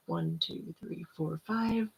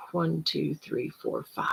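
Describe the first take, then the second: First: Quiet counting. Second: Soft counting, fading to a whisper; quiet counting. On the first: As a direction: count the breaths quietly and slowly. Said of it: "So it's". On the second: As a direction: count gently, letting it fade. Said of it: "Hold it for about two or three seconds". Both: Shown as a demonstration.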